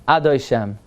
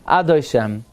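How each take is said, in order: No difference in how they are said.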